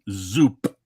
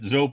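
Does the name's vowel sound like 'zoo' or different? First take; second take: like zoo; different. First: The vowel sounds like the word 'zoo'. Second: The vowel does not sound like 'zoo'. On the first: The speaker calls it right. "Zoo with a P at the end" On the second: The speaker calls it wrong. "I keep mispronouncing it"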